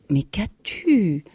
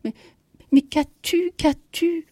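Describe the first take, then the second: First: Slow, drawn-out question, louder on the end; one unbroken, lingering query; concerned question. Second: High, loud, bewildered stammer; startled, repeated questioning at a much higher pitch. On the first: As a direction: ask it slowly with puzzled concern. Husband questions his troubled wife. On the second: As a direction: stammer the question out in alarm, voice jumping up. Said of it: "Il bégaya". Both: A narrator's reading.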